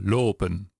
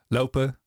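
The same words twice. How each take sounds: First: The first vowel stays steady without a glide. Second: The first vowel glides as a diphthong. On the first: This is the older pronunciation. "100 jaar geleden ... dan hoor je een O" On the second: This is the current local pronunciation. "Hier in Amsterdam. Au"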